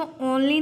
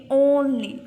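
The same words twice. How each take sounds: First: "only" with an open aw at the start; mispronounced O. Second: "only" loud, with a full long oh; corrected "only", said OHN-lee; long O sound. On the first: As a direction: say "only" as AWN-lee, the version to avoid. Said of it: "इसको only नहीं बोलेंगे". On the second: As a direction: lean on the OH in "only". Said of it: "ओ की sound आएगी". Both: Shown as a demonstration.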